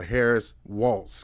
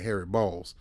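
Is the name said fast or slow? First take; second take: slow; fast. First: The name is said slowly, each word kept distinct. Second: The name is said quickly, running the words together. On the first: The speaker calls it right. "So I have to say it slow" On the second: The speaker calls it wrong. "I say it too fast, sound like Harry Balls"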